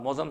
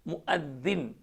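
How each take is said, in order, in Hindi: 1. यह mauzam की तरह बोला जाता है। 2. यह muaddin की तरह बोला जाता है। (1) "मौज़म साहब गलत है" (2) "सही लफ्ज़ उसका मुअद्दिन"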